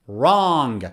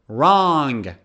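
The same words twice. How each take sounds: The two takes are said the same way.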